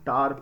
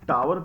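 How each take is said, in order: First: The word is said as one syllable. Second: The word is said as two syllables. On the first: The speaker calls it right. "इसे हम टार pronounce करते हैं" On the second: The speaker calls it wrong. "इसे हम टावर pronounce नहीं करते"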